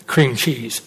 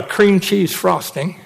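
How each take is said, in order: First: Low, soft, appalled repeat of cream cheese; disgusted echo. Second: Said in the usual way. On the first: Retold or imitated. Preacher echoing mom's dessert offer, low and disgusted. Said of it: "Are you kidding me?". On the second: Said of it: "So if you'd like to have".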